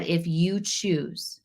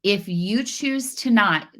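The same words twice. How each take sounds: First: "If you choose" slowly, each word weighted, choice word leaned on; stress on choose. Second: Said in the usual way. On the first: Shown as a demonstration. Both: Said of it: "notice I said".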